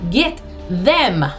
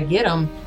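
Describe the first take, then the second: First: The second word is fully pronounced 'them'. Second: The second word is reduced to 'em'. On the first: "she's going to enunciate" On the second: "holler out a get 'em"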